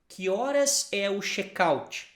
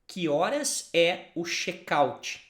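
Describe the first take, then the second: No difference in how they are said.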